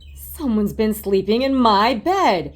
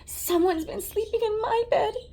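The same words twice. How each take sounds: First: It is said in a deep growling voice. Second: It is said in a high squeaky voice.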